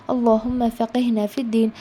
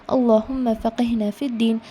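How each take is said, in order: The two takes are said the same way.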